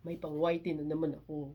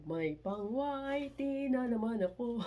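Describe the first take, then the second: First: Said in the usual way. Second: Playful lilting crow; gleeful singsong. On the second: Real, not acted. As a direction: sing out the good news with glee. Repeats line in gleeful singsong.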